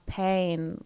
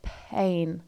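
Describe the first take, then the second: First: The vowel starts right after the p. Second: A puff of breath comes before the vowel. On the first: "where the vowel hits straight after the p" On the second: "there's this breath before it"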